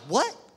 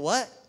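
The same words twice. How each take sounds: First: It is said with an irritated attitude. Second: It is said neutrally without attitude.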